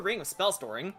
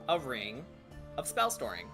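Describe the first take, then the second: First: It is said at a normal speaking pace. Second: It is said slowly and deliberately.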